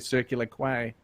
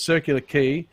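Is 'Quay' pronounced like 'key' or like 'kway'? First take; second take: kway; key. First: Quay is pronounced like 'kway'. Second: Quay is pronounced like 'key'. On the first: The speaker calls it wrong. "I always say Circular Quay" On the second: The speaker calls it right. "but it's Circular Quay"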